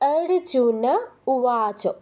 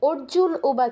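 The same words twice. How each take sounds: First: The name ends with a full vowel after n. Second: The name ends on a bare n consonant. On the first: The speaker calls it right. "না পূর্ণ উচ্চারণ করতে হবে" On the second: The speaker calls it wrong. "নয়"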